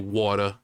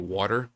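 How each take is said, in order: First: It is said with an exaggerated put-on accent. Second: It is said in a plain unaccented way. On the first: "I don't say water" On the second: "I don't have an accent"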